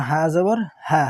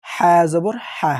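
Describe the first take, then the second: First: হা with an open, plain H; big ha. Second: হা from mid-throat, drawn out slowly; small ha. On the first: Teacher spelling the big letter, open হা. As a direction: let the H of হা come out without throat squeeze. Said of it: "হা বড়". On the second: Teacher spelling the small letter, throaty হা. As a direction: tight Arabic throat H in হা, louder and slow. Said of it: "এটা কি ছোট হা". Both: Shown as a demonstration.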